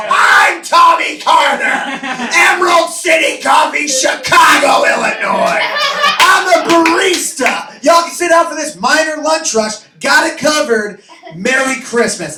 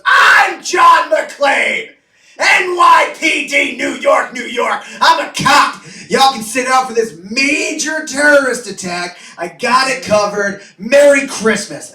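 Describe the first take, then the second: First: High, loud heroic yelling; over-the-top barista hero shouting; hammed-up hero shout. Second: High, loud heroic yelling; over-the-top McClane shouting; hammed-up action hero shout. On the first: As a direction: bellow it like an action movie cop. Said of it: "And I go". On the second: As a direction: bellow it like a movie cop. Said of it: "And he goes".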